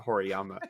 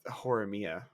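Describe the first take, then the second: First: The name is said as Horiyama. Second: The name is said as Horimiya. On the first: The speaker calls it wrong. "I think is what we called it" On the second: The speaker calls it right. "I think that's the first time I've ever said that right"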